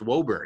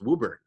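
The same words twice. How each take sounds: First: It uses an outsider's pronunciation of the name. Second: It uses the local Boston pronunciation of the name. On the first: This is how someone unfamiliar with the town would say it. The speaker calls it wrong. "is not pronounced Woburn" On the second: This is how people from the area say it. The speaker calls it right. "it's pronounced Woburn. If you're from Boston, you know"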